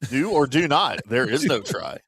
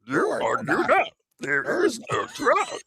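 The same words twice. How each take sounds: First: It is said in the speaker's normal voice. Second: It is said in a put-on Yoda voice.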